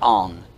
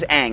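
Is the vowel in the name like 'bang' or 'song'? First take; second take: song; bang. First: The vowel sounds like the one in 'song'. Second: The vowel sounds like the one in 'bang'. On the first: This is how the movie names the character. The speaker calls it wrong. "not Ong" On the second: This is how the show names the character. The speaker calls it right. "The main character's name's Aang"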